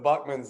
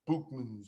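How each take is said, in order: First: The first vowel sounds like the vowel in 'buck'. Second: The first vowel sounds like the vowel in 'book'. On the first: The speaker calls it wrong. "I'll probably say Buckman next week too" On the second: The speaker calls it right. "y'all are saying it's Bookman"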